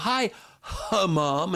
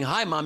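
First: A breathy h sound comes before Mom. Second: Mom starts plainly with no breathy sound. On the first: "you sound like some breathy weirdo" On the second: "instead of saying"

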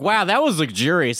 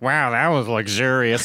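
First: It is said in a sincere, genuine tone. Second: It is said in a sarcastic, mocking tone. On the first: The speaker truly enjoyed it. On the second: Someone else mocks the speaker's reaction.

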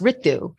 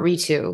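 First: The name is said with an Indian pronunciation. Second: The name is said with an anglicized English pronunciation. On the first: The speaker calls it right. "I go by the Indian pronunciation, or actually, it's pronounced Ritu" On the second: The speaker calls it wrong. "and not Ritu, not anglicized"

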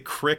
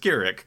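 First: The name is said as one syllable. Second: The name is said as two syllables. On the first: The speaker calls it wrong. "you can't say Krick" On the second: The speaker calls it right. "It's Kirik"

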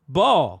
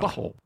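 First: The T sound in the middle is dropped. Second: The T sound in the middle is pronounced.

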